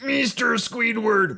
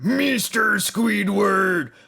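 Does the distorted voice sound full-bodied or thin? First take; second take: thin; full-bodied. First: The distorted voice sounds thin, with little body. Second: The distorted voice sounds full, with more body. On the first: The speaker calls it wrong. "Instead of" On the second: The speaker calls it right. "add some more diaphragm, more body to it"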